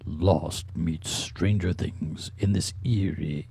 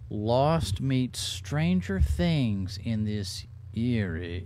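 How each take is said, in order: First: It is read in a put-on dramatic voice. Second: It is read in the speaker's normal voice.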